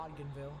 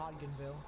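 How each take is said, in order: First: The D in the name is left silent. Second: The D in the name is left silent.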